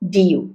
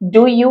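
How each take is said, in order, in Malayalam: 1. 'do' എന്ന വാക്ക് ചുരുങ്ങിയതും ദുർബലവുമായാണ് ഉച്ചരിക്കുന്നത്. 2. 'do' എന്ന വാക്ക് പൂർണ്ണമായും ശക്തമായും ഉച്ചരിക്കുന്നു. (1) "ആദ്യത്തെ do ഒരു helping verb ആണ്. അവിടെ do മതി" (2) "Do you അല്ല"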